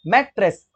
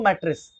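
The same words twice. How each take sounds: First: mattress split in two, मैट, then रेस; broken into syllables. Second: Said in the usual way. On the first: Shown as a demonstration. Teacher showing students two vowel sounds, mattress said syllable by syllable. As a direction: break mattress into two distinct beats. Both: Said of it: "अभी break हो रहा है ना".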